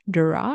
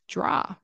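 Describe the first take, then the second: First: It begins with a clear D sound. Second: It begins with a J sound before the R. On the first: "instead of saying draw" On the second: "I'll pronounce it as a J, J, J, and an R sound"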